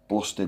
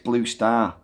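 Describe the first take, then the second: First: It sounds like the single word 'bluster'. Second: It sounds like two words, 'blue star'. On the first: The speaker calls it wrong. "I used to pronounce it Bluster" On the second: The speaker calls it right. "It's Blue Star after the Newcastle Brewery"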